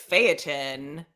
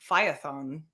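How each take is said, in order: First: The name has an anglicized English pronunciation. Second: The name has a Greek-style pronunciation. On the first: "the anglicized way is Phaeton" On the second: "I think the Greek pronunciation is um Phaethon"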